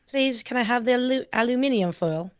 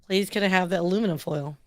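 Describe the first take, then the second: First: It is said in a British accent. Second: It is said in an American accent.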